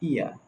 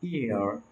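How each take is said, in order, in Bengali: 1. শব্দটি কোনো r ধ্বনি ছাড়াই শেষ হয়। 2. শব্দটি একটি স্পষ্ট r ধ্বনি দিয়ে শেষ হয়। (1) "ব্রিটিশ ইংলিশে আরটা উচ্চারণ হয় না" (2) "আমেরিকান ইংলিশে এটার উচ্চারণ হবে ইয়ার ইয়ার"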